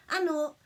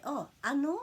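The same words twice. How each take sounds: First: Nō said higher and louder, falling firmly; "a nō" with a firm falling end; falling command tone. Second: "Oh, a nō" lifted and louder as a query; a surprised ask to repeat; "a nō" rising like a question; questioning anō. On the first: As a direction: ask them to do it again, firmly. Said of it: "it's the tone of your voice". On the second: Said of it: "That's how you say that". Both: Shown as a demonstration.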